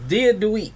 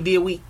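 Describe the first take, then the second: First: A d sound starts the second word. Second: No d sound starts the second word.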